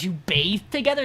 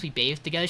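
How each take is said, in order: First: Retold disbelief, stressing TOGETHER as a question; acted-out "wait, what?" reaction; incredulous question. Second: Said in the usual way. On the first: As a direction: echo it back in mock shock. Colette reacts to the revelation.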